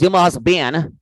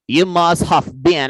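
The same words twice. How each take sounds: First: Said in the usual way. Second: Slowly, each word placed, especially have; slow careful correction. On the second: Shown as a demonstration. Teacher correcting the student, slow and deliberate. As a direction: spell out the fixed phrase slowly.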